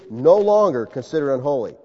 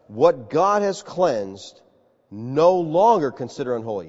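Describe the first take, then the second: First: Said in the usual way. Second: Very slow, weighty "What God has cleansed"; slow divine command. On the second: Acted. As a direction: lay each word down slowly like God. God's voice repeats command.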